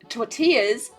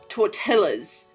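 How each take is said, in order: First: The double L sounds like a Y. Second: The double L sounds like an L.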